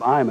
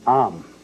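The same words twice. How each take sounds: First: The word is said short and plain. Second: The word is stretched out and elongated.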